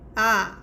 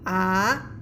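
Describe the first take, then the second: First: The pitch falls sharply. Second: The pitch rises steadily. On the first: "just go down" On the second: "the car go rising, go up the mountain"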